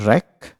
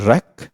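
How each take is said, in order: The two takes are said the same way.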